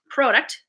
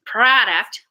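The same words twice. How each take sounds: First: Product with a long O, PROH-duct; Canadian pronunciation. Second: Product with an exaggerated AH, drawn out as PRAAH-duct; rejected pronunciation. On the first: Showing how I say it, product as PROH-duct. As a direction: say product as it's spelled, with an O. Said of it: "That's how I say it". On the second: Mocking the other way, product with a big AH. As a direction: stretch product into PRAH-duct. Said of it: "it'd be spelled with an A". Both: Shown as a demonstration.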